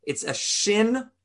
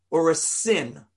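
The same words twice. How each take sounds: First: "shin" said slowly with an SH sound. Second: "sin" said with a plain S sound. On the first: Rabbi shows class the dotted letter, slow "shin" with SH. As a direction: draw out "shin" with a clear SH. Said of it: "the S H sound". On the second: Rabbi shows class the other dot position, "sin" with S. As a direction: give "sin" a clear S. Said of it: "between the S sound". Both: Shown as a demonstration.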